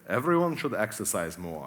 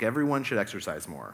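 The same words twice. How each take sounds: First: It is said in a put-on German accent. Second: It is said in the speaker's normal accent.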